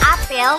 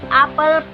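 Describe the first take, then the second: First: The second vowel is a clear e sound. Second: The second vowel is a schwa sound. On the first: It names a fruit. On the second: It means an assembly or ceremony.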